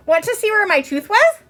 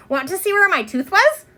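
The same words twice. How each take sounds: First: Put-on high, bright little-girl voice, same eager question; eager child again. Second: Put-on eager child. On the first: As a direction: ask her friend proudly, rising at the end. Ramona asks again. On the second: Ramona shows off her tooth.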